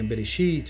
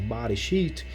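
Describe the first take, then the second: First: The first syllable is said with an 'e' vowel. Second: The first syllable is said with an 'a' vowel. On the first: "a palavra não deveria ser Bereshit" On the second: "deveria ser Bareshit"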